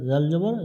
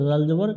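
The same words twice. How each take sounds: The two takes are said the same way.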